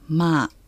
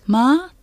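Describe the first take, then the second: First: The tone is level and flat. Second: The tone is high. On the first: It means come. "まあは平らな声調" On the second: It means horse. "高い声調でまあとすると馬"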